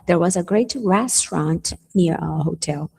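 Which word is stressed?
restaurant. The emphasis falls on the word restaurant. It was a restaurant, not a café or snack bar. "Não era uma cafeteria, não era uma lanchonete, era um restaurant"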